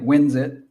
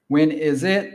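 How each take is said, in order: First: 'is' shrinks to a z sound joined to 'when'. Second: Each word is said fully and separately.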